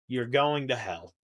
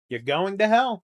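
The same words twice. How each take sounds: First: Said in the usual way. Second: A louder, higher mock damnation of "hell"; mock condemnation. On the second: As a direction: hammer "You're going to hell." as a mock curse.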